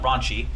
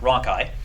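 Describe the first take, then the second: First: It sounds like the word raunchy. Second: It sounds like ronkey, not like raunchy. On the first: The speaker calls it wrong. "not raunchy" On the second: The speaker calls it right. "that's how I pronounce it"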